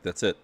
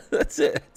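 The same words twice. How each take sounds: First: Said in the usual way. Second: High breathless giggle through words; squeaky laughing. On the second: Real, not acted.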